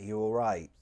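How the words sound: The pitch sounds light, casual and happy. It is an everyday greeting on a normal day. "they sound very casual, normal, maybe happy"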